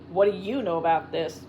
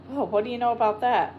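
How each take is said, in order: First: Even, steady, pointed question; level. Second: Drawled. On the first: Tex levelly questioning the suspicious Shorty. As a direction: hold it flat and accusing. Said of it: "Tex looked at him levelly". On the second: Shorty drawling his surprise at the nettle. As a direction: drag the words out innocently. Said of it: "he drawled". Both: A narrator's reading.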